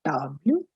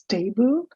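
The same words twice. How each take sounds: First: 'table' the French way, TAH-bluh; French 'table', set against the English word; French pronunciation of table. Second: 'table' the English way, TAY-bul; English 'table' with a long A; English pronunciation of table. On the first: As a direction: model 'table' in French, ah vowel and final bluh. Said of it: "and in French it is". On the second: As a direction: say 'table' as the everyday English word, with an ay. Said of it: "as you know already in English". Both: Shown as a demonstration.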